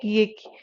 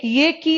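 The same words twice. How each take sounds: First: "की" with a drawn-out long ee; long vowel in की. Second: "की" said quickly with a short i; short vowel in की. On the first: Teacher contrasting two Hindi vowels, lengthened "की". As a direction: hold the vowel of "की" longer. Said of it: "इसको थोड़ा सा time लगता". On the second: Teacher showing Hindi learners the quick vowel, short "की". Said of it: "थोड़ा सा जल्दी प्रोनाउंस करते हो". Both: Shown as a demonstration.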